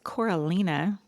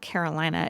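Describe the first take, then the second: First: The name begins with the sounds 'Cora'. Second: The name begins with the sounds 'Caro'. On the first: The speaker calls it right. "it's Coralina" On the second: The speaker calls it wrong. "That's not Carolina"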